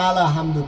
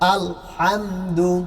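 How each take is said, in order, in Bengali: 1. l-এর পরে একটি স্বরধ্বনি যোগ হয়। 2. l টানা হয়, তার পরে কোনো স্বরধ্বনি থাকে না। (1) "আলা হামদু কও কেন?" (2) "সাকিন ধরে রাখতে হবে"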